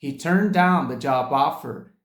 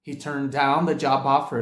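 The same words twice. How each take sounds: First: "job offer" said slowly with linked sounds; slow demo. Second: "job offer" run together; connected demo. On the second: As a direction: blend "the job offer" into one flow. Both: Shown as a demonstration. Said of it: "Confere aí".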